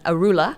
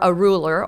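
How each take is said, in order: First: It is said in a Boston accent. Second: It is said in the speaker's ordinary accent.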